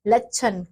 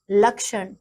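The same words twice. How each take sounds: First: लक्षण said as "lachan" with no ksh and dental n; wrong pronunciation. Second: लक्षण said carefully as "lakshan" with ksh and retroflex n; correct pronunciation. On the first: Teacher shows pupils the wrong form लक्षण, "lachan". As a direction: mispronounce लक्षण as "lachan" on purpose. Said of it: "अशुद्ध शब्द दिए गए हैं". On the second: Teacher gives pupils the correct लक्षण, "lakshan". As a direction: articulate लक्षण fully as "lakshan". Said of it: "एक तरफ शुद्ध शब्द". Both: Shown as a demonstration.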